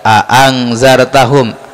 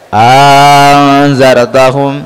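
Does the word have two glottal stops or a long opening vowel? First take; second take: glottal stops; long vowel. First: Two separate glottal stops open the word. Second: A lengthened vowel opens the word. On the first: "dibaca dua-duanya hamzah" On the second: "dibaca panjang"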